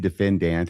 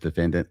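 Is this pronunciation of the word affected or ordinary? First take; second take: affected; ordinary. First: The word is said in an unusual, affected way. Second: The word is said in the usual, plain way. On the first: "how I say defendant and it's really annoying" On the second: "instead of just defendant"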